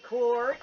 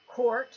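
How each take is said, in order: First: Court punched with heavy stress and a rise at the end; emphatic court. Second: Said in the usual way. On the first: Retold or imitated. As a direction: lean hard on the word court, Eustace Mullins style. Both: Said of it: "with emphasis".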